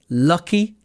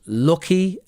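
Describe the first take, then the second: First: It is said with an RP vowel. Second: It is said with a Northern English vowel. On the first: "the R P pronunciation is lucky and luck" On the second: "you will hear me say it as lucky and look. That's because I have a Northern English accent"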